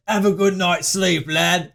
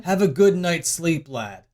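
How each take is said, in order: First: Workshopping a British catchphrase; put-on British lad voice; mock British accent. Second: Said in the usual way. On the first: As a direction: try the line in broad British. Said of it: "What am I gonna say?". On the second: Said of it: "What is the one-liner again".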